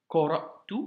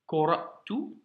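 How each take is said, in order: Both takes have the same delivery.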